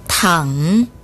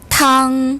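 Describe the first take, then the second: First: The pitch dips low, then rises. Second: The pitch stays high and level. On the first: It means to lie down. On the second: It means soup.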